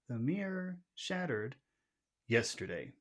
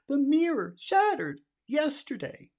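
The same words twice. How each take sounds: First: Normal pitch, with the final syllable low. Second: The whole sentence is pitched very high. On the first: The speaker is simply giving a fact. The speaker calls it right. "we use our normal high. And we'll make the final syllable low" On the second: The speaker is scared or worried. The speaker calls it wrong. "if you're scared, you go extra high"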